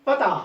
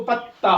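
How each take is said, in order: First: पता with a single short t; common pronunciation. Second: पत्ता with a held double t, pat-ta; taught pronunciation. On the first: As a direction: say पता lightly, as pa-ta. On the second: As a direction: press the त in पत्ता. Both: Shown as a demonstration. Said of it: "पढ़ना चाहिए इसको पत्ता".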